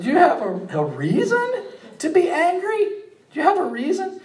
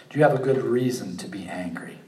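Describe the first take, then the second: First: Much higher, laughing, gently incredulous question; a kind God teasing a sulking prophet; merciful God. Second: Said in the usual way. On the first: Acted. God gently asking sulking Jonah, high amused voice. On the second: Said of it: "Isn't that merciful?".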